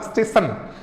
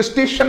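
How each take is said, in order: First: स्टेशन said stesan, sh turned into s; mispronounced station. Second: स्टेशन with a clear sh sound, steshan; correct station. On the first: Retold or imitated. Teacher mimics his old स्टेशन as stesan, sh to s. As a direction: imitate saying स्टेशन as stesan. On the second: Shown as a demonstration. Teacher showing the right स्टेशन, with a clear sh. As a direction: say स्टेशन as steshan, not stesan. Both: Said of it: "स्टेशन नहीं बोलता था".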